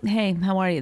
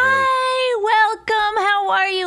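First: It is said in a plain, normal voice. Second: It is said in a high, overly cheery voice.

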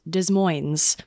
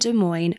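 First: The S sounds in the name are pronounced. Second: The S sounds in the name are silent. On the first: The speaker calls it wrong. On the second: The speaker calls it right.

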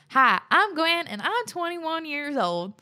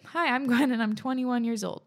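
First: It is spoken in a put-on country accent. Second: It is spoken in the speaker's normal accent.

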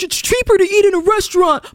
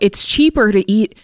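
First: It is said in a put-on mocking voice. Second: It is said in the speaker's normal voice.

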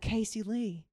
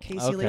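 First: The name is said in a Southern accent. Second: The name is said with no regional accent. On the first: "If you say it with a Southern accent" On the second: "my parents don't have accents at all, so it does just sound normal"

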